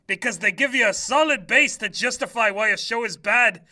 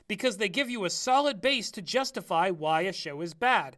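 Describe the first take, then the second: First: It is read in a deliberately bad, put-on voice. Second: It is read in a natural, ordinary voice.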